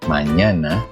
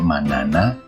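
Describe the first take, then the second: First: The middle consonant is a ny sound. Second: The middle consonant is a plain n. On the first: The speaker calls it right. "yang benar adalah" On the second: The speaker calls it wrong. "jangan dibaca"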